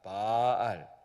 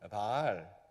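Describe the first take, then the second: First: The vowel is drawn out long. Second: The vowel is said short. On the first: It means to own or possess. "발을 길게 하는 알입니다" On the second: It names the idol Baal. "이 말을 짧게 발음하면"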